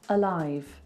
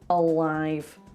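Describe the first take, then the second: First: It is said in a standard southern RP accent. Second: It has a dark L and a stretched northern vowel. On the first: "This would be R P, like Emma Watson. She would say alive" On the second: "He goes alive. ... I stretch the vowel Manchester"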